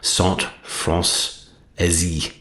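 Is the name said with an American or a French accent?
French. The name is said with a French accent.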